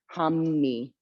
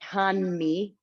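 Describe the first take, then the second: First: The middle consonant sounds like an m. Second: The middle consonant sounds like a clear n. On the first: The speaker calls it right. "It's this M sound" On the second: The speaker calls it wrong. "So you'd think it would be Hanmi"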